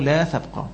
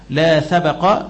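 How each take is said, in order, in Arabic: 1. لا تتبع الباء أي حركة. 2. تتبع الباء فتحة قصيرة. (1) "بالسكون" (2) "بالفتح"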